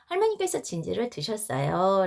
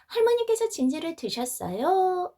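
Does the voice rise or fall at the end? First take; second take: falls; rises. First: The voice falls at the end. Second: The voice rises at the end.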